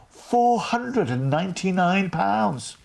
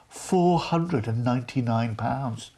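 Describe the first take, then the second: First: Higher, very slow, "Four hundred and ninety-nine pounds" hammered word by word; emphatic repeat. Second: Said in the usual way. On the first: Shown as a demonstration. Host repeating the fare to viewers in disbelief, slow and emphatic. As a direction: land each word of the price.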